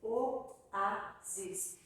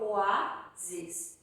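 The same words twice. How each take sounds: First: "Oásis" as o, á, sis, each on its own; three separate syllables. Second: "oásis" split in two, oá and sis; "oásis" with its first two vowels merged into one beat; wrongly joined syllables. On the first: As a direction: pause between all three syllables of "Oásis". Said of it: "São três sílabas". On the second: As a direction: run the o and á of "oásis" together, then sis. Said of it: "Eu não falo oásis". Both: Shown as a demonstration.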